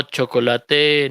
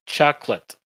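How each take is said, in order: First: Chocolate said the Spanish way, three syllables, cho-co-la-te; wrong Spanish reading of chocolate; Spanish-style chocolate. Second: Chocolate said in two syllables, CHAK-let; clipped English chocolate, CHAK-let. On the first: Teacher shows students the wrong Spanish way, syllable by syllable. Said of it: "No, chocolate". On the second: Teacher shows students the correct English chocolate, two syllables. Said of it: "A veces lo ponen así". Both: Shown as a demonstration.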